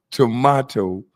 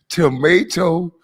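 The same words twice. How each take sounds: First: "tomato" as tuh-MAH-toe, falling; tomato with broad a. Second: "Tomato" said slowly as tuh-MAY-toe; tomato with long a. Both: Retold or imitated. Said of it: "say tomato is spelled just like tomato".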